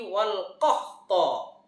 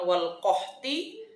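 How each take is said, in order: First: The last word ends with an a vowel. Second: The last word ends with an i vowel. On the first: The speaker calls it right. "Alamat nasabnya dengan fat fathah" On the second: The speaker calls it wrong. "bukan wal qahti"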